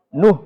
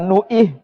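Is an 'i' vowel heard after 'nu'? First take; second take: no; yes. First: No vowel follows the 'nu' syllable. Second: An 'i' vowel follows the 'nu' syllable. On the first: The speaker calls it right. "tapi nuh" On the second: The speaker calls it wrong. "bukan nuih"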